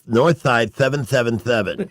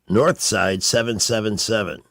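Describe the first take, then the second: First: The s sounds are lisped. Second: The s sounds are clear.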